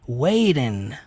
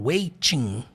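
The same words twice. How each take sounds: First: The middle t is soft, like an r. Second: The middle t is a crisp t sound. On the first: The speaker calls it right. "suavizar mais o som do T, né? Pronunciando com o sonzinho do R" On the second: The speaker calls it wrong. "ele não fala waiting com som de T"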